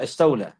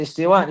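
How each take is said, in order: First: استولى with an l before the final vowel; استولى, ending in "la"; added lam. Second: استواء with no l sound; استواء, ending in "wa" without a lam; original word. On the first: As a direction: say استولى as "istawla". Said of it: "they will add a letter". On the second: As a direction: say استواء as "istiwa". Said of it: "They say". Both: Shown as a demonstration.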